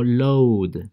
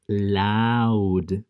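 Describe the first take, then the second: First: "load" with an O sound in place of "au"; drawn-out mistaken "load", O as written; wrong spelling pronunciation. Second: LOUD with an "ow" sound as in cloud; slow, held loud, rhyming with crowd; correct vowel. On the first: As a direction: say load with a long O, as the mistaken reading. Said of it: "no digo load". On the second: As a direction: draw out the "au" in loud, slowly. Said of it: "digo loud". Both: Shown as a demonstration.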